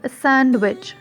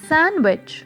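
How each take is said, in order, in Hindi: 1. d की ध्वनि साफ़ तौर पर बोली जाती है। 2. d की ध्वनि साइलेंट रहती है। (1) "it is not सैंडविच" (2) "it is सैंडविच"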